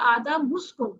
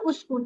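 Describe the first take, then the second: First: The word is joined onto the preceding word. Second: The word starts with its own u vowel. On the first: "जोड़ के पढ़ेंगे" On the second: "ये देखिए मैंने कहा उसकुन"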